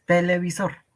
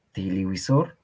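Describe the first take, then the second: First: "televisor." said te-le-bi-sor as in Spanish; "televisor." plain Spanish vowels; Spanish pronunciation. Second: "Televisor" as tiliwisor, e turned to i; "Televisor" with w sound, tili-wi-sor; Quechua-adapted pronunciation. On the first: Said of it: "tal cual, como en castellano". ("televisor." pronunciado como en castellano) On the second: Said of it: "Una adaptación". ("Televisor" adaptado, tiliwisor) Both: Shown as a demonstration.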